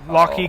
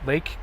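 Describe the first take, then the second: First: The word is said with two syllables, 'locky'. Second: The word is said as one syllable, 'lake'. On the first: The speaker calls it wrong. "they say Locky" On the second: The speaker calls it right. "it's just lake"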